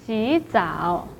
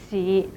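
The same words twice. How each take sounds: First: 洗 rising, then 澡 low in 洗澡; second-tone change. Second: 洗 in a low dipping third tone. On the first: Teacher shows the changed tone in this situation, rising second tone. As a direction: lift 洗 upward before the low dipping 澡. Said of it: "changed to the second tone". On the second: Teacher gives the word's own tone, low third tone. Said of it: "洗 should be pronounced as". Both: Shown as a demonstration.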